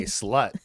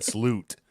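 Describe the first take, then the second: First: Said in the usual way. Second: "sloot" with a long oo; "sloot", rhyming with boot. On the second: Retold or imitated. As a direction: say "sloot", stretching the vowel to oo as in boot. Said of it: "but he said sloot".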